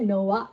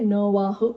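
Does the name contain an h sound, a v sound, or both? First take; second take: v only; both. First: The name is said with a v, no h. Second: The name is said with both v and h. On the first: This is how the name sounds in English. "English లో వచ్చేసరికి నోవా" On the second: This is how the name sounds in Telugu. "మన తెలుగులో వచ్చేసరికి నోవాహు"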